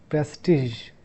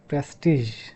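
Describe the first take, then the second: The two takes are said the same way.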